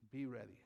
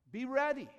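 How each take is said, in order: First: Said in the usual way. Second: Much higher and louder, ringing out; shouted warning. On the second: Acted. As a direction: cry it out to the congregation. Shouted climax of the exhortation.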